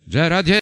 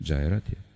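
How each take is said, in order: First: The name is exclaimed loudly with excitement. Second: The name is said calmly and quietly. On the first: The speaker calls it right. "Они не спокойно говорят" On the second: The speaker calls it wrong. "не так говорят, я спокойно говорю"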